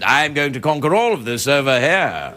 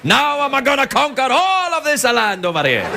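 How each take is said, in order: First: It is said in an English accent. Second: It is said in an Italian-style accent.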